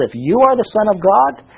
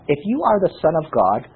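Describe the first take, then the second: First: "If you are the Son of God" higher, rising into a question; pointed questioning echo. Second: Said in the usual way. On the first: Acted. Preacher stops to question the mockers' words, pointed rising echo. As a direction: query it pointedly, lifting to a rise on "God". Stops reading to query the verse.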